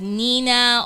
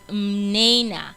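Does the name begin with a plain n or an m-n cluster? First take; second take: plain n; m-n cluster. First: The name begins with a plain n sound. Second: The name begins with an m-n sound cluster. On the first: This is how other people usually say the name. The speaker calls it wrong. "a lot of people call me Nina" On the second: This is how the name is really said. The speaker calls it right. "it's actually Mnena"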